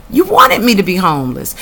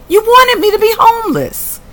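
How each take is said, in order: First: Said in the usual way. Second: Pitched high and loud, outraged; outraged high cry. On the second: Real, not acted. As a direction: cry it out, stunned at the injustice. First outraged take.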